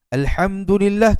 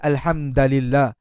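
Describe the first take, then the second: First: The vowel after the d is 'u'. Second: The vowel after the d is 'a'. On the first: The speaker calls it right. "Asalnya huruf du dibaca hadapan" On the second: The speaker calls it wrong. "dibaca menjadi baris atas"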